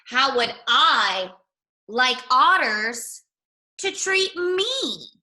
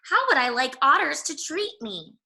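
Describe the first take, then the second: First: Slow, word by word, rising high on me; slow pondering. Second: Said in the usual way. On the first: Shown as a demonstration. Rabbit ponders the saying aloud, slow and drawn out. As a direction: mull each word over slowly. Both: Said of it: "repeated slowly, pondering".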